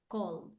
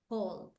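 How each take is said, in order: No difference in how they are said.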